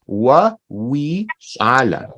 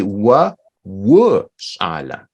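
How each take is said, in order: First: Slow "Wa wi shala", middle word with an ee vowel; "Wa wi shala" in slow, separate words, "wi" as wee; mistaken pronunciation. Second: Slow, low "wa wu shala", middle word with an oo vowel; "wa wu shala" slowly, word by word, "wu" as woo; corrected pronunciation. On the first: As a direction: say "wi" like English "we" in "Wa wi shala". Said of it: "what Dal'a said is". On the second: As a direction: say "wu" with rounded oo in "wa wu shala". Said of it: "that's not correct. It's actually". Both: Shown as a demonstration.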